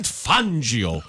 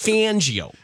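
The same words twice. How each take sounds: First: The name is said with Italian pronunciation. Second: The name is said with American pronunciation. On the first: The speaker calls it right. "Isn't it Fangio?" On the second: The speaker calls it wrong. "Why is it Fangio? Because he's in America"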